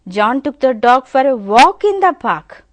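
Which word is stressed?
walk. The stress falls on the word walk. It was a walk he took it for. "if you give a stress on walk"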